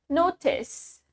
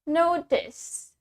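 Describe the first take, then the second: First: The t is a clear t sound. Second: The t is a clear t sound.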